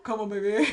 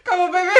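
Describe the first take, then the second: First: Lightly voiced Maltese accent, rising at the end. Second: Loud, high, laughing Maltese accent impression. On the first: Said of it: "with a, like, a Maltese accent". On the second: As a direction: ham up a Maltese charmer. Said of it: "what was your impression of him".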